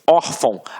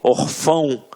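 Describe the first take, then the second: First: The stress is on the first syllable. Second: The stress is on the last syllable. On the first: The speaker calls it right. "a sílaba tônica está na penúltima sílaba" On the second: The speaker calls it wrong. "se fosse um acento"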